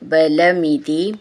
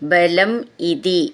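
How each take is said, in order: First: The two words are joined into one. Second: The two words are said separately, unlinked.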